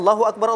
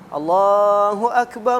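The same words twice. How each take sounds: First: The phrase is said quickly. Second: The phrase is said slowly. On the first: The call to prayer is rushed. The speaker calls it wrong. "Ini ini tidak tidak elok gitu" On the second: It is the call to prayer, done as recommended. The speaker calls it right. "azan itu pelan-pelan gitu"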